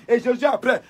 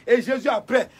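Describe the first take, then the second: No difference in how they are said.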